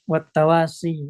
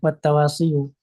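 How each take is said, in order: First: The word ends on a plain 'ee' vowel. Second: The word ends with an added 'yu' syllable. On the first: The speaker calls it right. "Ya-nya sukun" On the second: The speaker calls it wrong. "bukan wattawasiyu"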